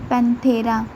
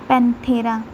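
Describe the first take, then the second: No difference in how they are said.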